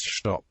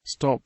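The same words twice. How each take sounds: First: "shtop" with an SH sound before the T; S turned to SH at the start of "shtop"; Kerry pronunciation. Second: Said in the usual way. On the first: Shown as a demonstration. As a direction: say "shtop", opening on SH rather than S. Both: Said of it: "Stop becomes shtop".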